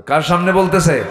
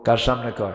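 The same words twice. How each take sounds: First: Higher, louder repeated question; raised voice. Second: Said in the usual way. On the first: Real, not acted. Preacher asking listeners whom she faces, raised ringing voice. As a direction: throw the question out to the crowd. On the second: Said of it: "আস্তে কয়".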